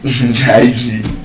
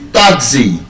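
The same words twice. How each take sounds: First: The stress is on the second syllable. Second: The stress is on the first syllable.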